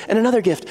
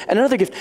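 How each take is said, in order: Both takes have the same delivery.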